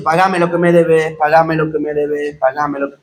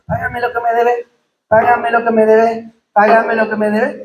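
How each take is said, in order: First: Squeezed, sinking lower with each repeat; mock being strangled while demanding payment, fading out; choking voice. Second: Said in the usual way. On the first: Preacher acting the servant choked while demanding his debt, strangled fading voice. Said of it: "Por eso dice ahogaba". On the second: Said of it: "tener que andar diciendo dos, tres, cuatro, cinco veces".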